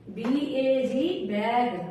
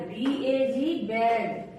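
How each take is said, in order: Both takes have the same delivery.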